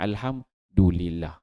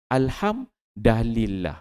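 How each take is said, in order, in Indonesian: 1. Huruf d diikuti vokal 'u'. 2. Huruf d diikuti vokal 'a'. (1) "Dia tak baca dengan Alhamdulillah" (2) "Baris dal tu dia bariskan atas"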